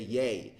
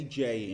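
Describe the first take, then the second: First: The letter sounds like 'yay'. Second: The letter sounds like 'jay'. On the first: This is the Dutch letter name. "You say Yay" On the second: This is the English letter name. "you don't say J in Dutch"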